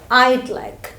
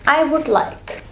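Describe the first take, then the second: First: 'I would' is shortened to 'I'd'. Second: The word 'would' is said in full. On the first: The speaker calls it right. "you will say I'd like" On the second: The speaker calls it wrong. "instead of saying I would like"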